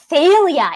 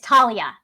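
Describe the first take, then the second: First: The name begins with a soft 'th' sound. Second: The name begins with a hard 't' sound. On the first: The speaker calls it wrong. "he continually mispronounces Thalia" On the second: The speaker calls it right. "It is Talia"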